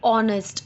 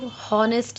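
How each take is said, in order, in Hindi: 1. यह शब्द स्वर से शुरू होता है, h नहीं है। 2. यह शब्द h ध्वनि से शुरू होता है। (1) "एच इसमें साइलेंट होता है" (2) "इसको हॉनेस्ट नहीं बोलते"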